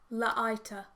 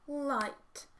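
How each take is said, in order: First: The word is blended with extra uh vowels. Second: The word is blended without extra vowel sounds. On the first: The speaker calls it wrong. "if we use the schwas that are often associated with the sounds l and t" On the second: The speaker calls it right. "if we are sounding out in the correct way, it sounds like this"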